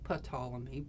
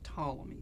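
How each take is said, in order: First: The word begins with a sounded P. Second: The word begins without any P sound. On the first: The speaker calls it wrong. "I know it looks like Ptolemy" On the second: The speaker calls it right. "you don't pronounce the P"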